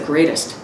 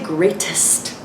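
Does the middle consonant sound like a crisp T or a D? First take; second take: like D; crisp T. First: The middle consonant sounds almost like D. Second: The middle consonant is a crisp T. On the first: The speaker calls it right. "It's like, it's almost a D" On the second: The speaker calls it wrong. "we don't say greatest"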